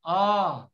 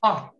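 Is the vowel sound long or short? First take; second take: long; short. First: The vowel is held long. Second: The vowel is cut short. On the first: "you pronounce it as a long sound" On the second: "A short sound is ah"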